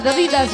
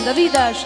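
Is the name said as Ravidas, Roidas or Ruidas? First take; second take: Ravidas; Ravidas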